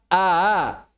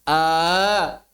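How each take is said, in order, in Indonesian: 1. Ada hentian glotal yang dilembutkan. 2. Ini vokal panjang biasa tanpa hentian glotal. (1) "Yang lebih akurat a" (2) "sebagian orang yang baca a, a, itu belum ada hamzah tasil"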